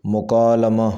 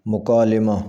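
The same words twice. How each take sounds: First: مکالمہ with a short a after l, "mukaalama"; correct pronunciation. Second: مکالمہ with a short i, "mukaalima"; mispronounced. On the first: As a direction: say مکالمہ as mu-kaa-LA-ma. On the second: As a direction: say مکالمہ as mu-kaa-LI-ma. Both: Shown as a demonstration. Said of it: "صحیح تلفظ ہے".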